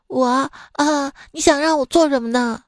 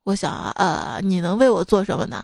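First: Higher, timid student asking back. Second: Lower, unimpressed supervisor asking back; teacher voice. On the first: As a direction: play the nervous new student. Student answering the supervisor. (学生怯生生地反问) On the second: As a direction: play the deadpan professor. Supervisor answering the student. (导师低沉地反问) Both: Acted.

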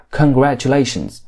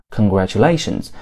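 First: "congratulations" with each syllable given equal stress; sing-song Welsh beat, even on all of "congratulations"; evenly stressed. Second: Said in the usual way. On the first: Shown as a demonstration. Teacher showing learners Welsh rhythm, "congratulations" stressed evenly. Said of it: "每个重音都平均分布". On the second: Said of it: "我们不说congratulations".

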